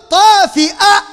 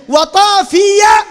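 First: طافئة slow, with a clear glottal hamza before the final a; طافئة spoken slowly, hamza sounded. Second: طافية slow and loud, a clear ya glide before the final a; طافية loud and drawn out, ya sounded. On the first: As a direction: stretch out طافئة and stop on the hamza. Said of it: "بالهمزة على نبرة". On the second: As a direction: call out طافية, gliding through the ya. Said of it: "بالياء دي الشمال". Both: Shown as a demonstration.

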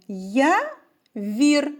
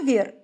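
First: Я and вір split apart, a pause between them; reading by syllables. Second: Явір called out as one word, stress on Я; calling the word. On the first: Teacher reading the word for children syllable by syllable. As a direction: sound out Я, then вір, as two beats. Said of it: "Прочитаємо". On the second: Teacher calls the word so children hear the stress. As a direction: call Явір to a friend, leaning on the first syllable. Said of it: "Давайте покличемо". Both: Shown as a demonstration.

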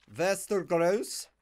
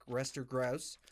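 First: Play-acted Slavic border-guard accent; mock Eastern European accent. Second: Said in the usual way. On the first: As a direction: roll it out in a hammy Slavic accent. Repeats name in mock accent.

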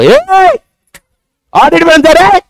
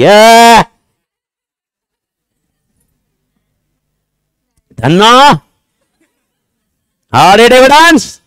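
First: High-pitched yell up at a signboard; mock calling out. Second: Long, rising mock holler; hammed-up filmi shout. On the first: Teacher pretends to demand audit evidence from a company signboard, high mock shout. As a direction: holler in a put-on, very high voice. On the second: Teacher pretends to demand audit evidence with bottle in hand, drawn-out filmi holler. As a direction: stretch each word out in a loud, high put-on yell.

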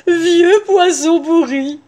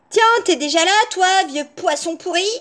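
First: Slow, high, syrupy wolf; drawn-out honeyed voice, pitched up; sugary sweetness. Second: Put-on high, brash girl voice; cheeky insult. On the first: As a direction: savour each word with exaggerated sweetness. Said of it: "prit sa voix la plus douce". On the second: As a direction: toss the insult out rudely. Rude girl insults the wolf. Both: A narrator's reading.

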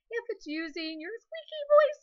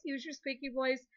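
First: High, loud squeak; squeaky voice. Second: Said in the usual way. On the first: Shown as a demonstration. Teacher showing the class a card option, squeaky voice. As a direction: pitch it way up into a squeak.

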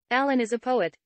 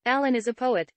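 No difference in how they are said.

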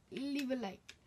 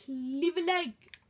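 First: Said in the usual way. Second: Loud, slow put-on voice; cutesy plea. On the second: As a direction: beg in a silly voice.

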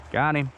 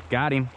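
No difference in how they are said.

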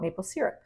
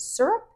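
First: "maple syrup" with "syrup" as SEER-up; adult-life pronunciation. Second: "syrup" said as SUR-up; childhood pronunciation. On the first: Vlogger giving the word used as an adult, "syrup" as SEER-up. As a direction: say "syrup" with an ee in the first syllable, SEER-up. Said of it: "and in my adult life". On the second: Vlogger recalling how family said it, "syrup" as SUR-up. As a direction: say "syrup" with an ur in the first syllable, SUR-up. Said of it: "I think growing up". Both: Shown as a demonstration.

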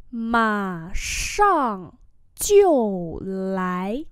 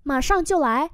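First: Slow, syllables held apart; teacher's syllable-by-syllable demo; slow model reading. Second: Said in the usual way. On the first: Shown as a demonstration. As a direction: stretch out "Mà sang chiêu lái". Same phrase drawn out for learners.

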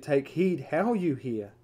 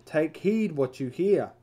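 First: Slow, deliberate, leaning on "how"; stress on how. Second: Slow, deliberate, leaning on "what"; stress on what. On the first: Preacher stressing how to his listeners, slow and weighty. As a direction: give "how" the weight, each word measured. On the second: Preacher stressing what to his listeners, slow and weighty. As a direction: give "what" the weight, each word measured. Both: Shown as a demonstration. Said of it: "It is what we listen to and how we listen to it".

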